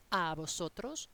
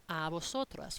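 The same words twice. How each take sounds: First: "vosotros" ending clearly on -os; masculine form. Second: "vosotras" ending clearly on -as; feminine form. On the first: Teacher naming the masculine form, ending in -os. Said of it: "the masculine one". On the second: Teacher naming the feminine form, ending in -as. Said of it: "or the feminine one". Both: Shown as a demonstration.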